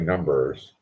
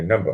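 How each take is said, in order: First: The r sound at the end is pronounced. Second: The r sound at the end is dropped. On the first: "I don't say numbers" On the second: "that's Boston for numbers"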